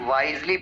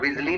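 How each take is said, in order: First: The first vowel is a long 'eye' sound. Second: The first vowel is a short 'ih' sound. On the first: The speaker calls it right. "वाइजली pronounce करते हैं" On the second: The speaker calls it wrong. "विजली नहीं"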